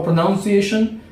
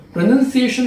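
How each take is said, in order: First: "pronunciation" said with "noun" as its second syllable; common mispronunciation. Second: "pronunciation" said with "nun" as its second syllable; correct pronunciation. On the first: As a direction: say "pronunciation" like "pronounce" plus "-iation". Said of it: "Most of the students speak about". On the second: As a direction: say "pronunciation" with a short "nun", not "noun". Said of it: "No, pronunciation is the right pronunciation". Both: Shown as a demonstration.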